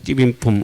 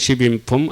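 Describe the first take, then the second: First: The first consonant is a tense, hard jj. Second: The first consonant is a plain, soft s.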